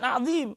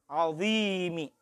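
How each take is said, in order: First: The word ends on the consonant m. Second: The word ends with a final i vowel. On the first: The speaker calls it wrong. "Bukan azim, awas" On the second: The speaker calls it right. "subhana rabbiyal azimi"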